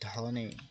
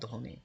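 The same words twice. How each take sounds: First: It is said with an English accent. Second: It is said with a native Bengali accent. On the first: This is how English speakers said it. "তারা ইংরেজের মতো করে বলতো" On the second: This is the proper Bengali word. "আর বাংলা শব্দ ধনী"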